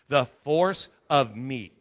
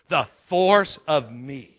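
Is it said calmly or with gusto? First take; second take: calmly; with gusto. First: It is said in a plain, calm way. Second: It is said loudly with great energy.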